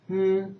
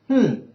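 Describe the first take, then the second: First: The hum follows the first tone. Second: The hum follows the fourth tone. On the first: "the first intonation is" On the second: "the fourth is"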